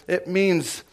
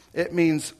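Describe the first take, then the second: No difference in how they are said.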